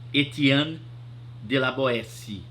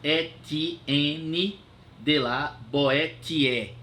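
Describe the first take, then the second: First: The name is said with French pronunciation. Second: The name is read letter by letter as spelled. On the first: The speaker calls it right. "mas se pronuncia" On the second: The speaker calls it wrong. "Se escreve Etienne"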